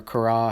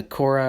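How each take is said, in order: First: "Korah" as kor-AH, open second syllable; alternative pronunciation. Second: "Korah" as KOR-uh, first syllable stressed; one pronunciation. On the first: Teacher allows however you say it, alternative pronunciation of "Korah" as kor-AH. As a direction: lean on the end of "Korah": kor-AH. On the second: Teacher offers either name reading, first pronunciation of "Korah" as KOR-uh. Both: Shown as a demonstration. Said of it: "however you say it".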